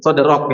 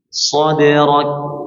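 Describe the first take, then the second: First: The final k ends with no audible breath. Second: The final k ends with an audible puff of breath. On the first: The speaker calls it wrong. "Jelek sekali ya" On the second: The speaker calls it right.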